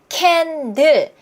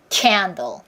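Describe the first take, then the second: First: Both syllables are said flat and even. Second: The first syllable is long and strongly stressed. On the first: The speaker calls it wrong. "강세 리듬을 제대로 못 타서 그런 거예요. candle, candle 이렇게 소리를 내니까" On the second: The speaker calls it right. "이렇게 리듬을 타야 그들의 귀에 들립니다"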